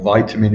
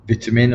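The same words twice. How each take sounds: First: It is said with an American pronunciation. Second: It is said with a non-American pronunciation.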